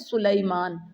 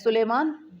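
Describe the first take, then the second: First: The name is said with an 'ee' glide. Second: The name is said without an 'ee' glide. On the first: This is the name's original form. "असल में नाम क्या है?" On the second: This is the common everyday way of saying it. "तो आप क्या कहते हैं?"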